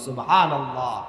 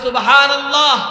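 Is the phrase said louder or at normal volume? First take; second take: normal; louder. First: The phrase is said at normal volume. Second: The phrase is said more loudly. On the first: "বলি সুবহানাল্লাহ" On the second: "আর জোরে বলি"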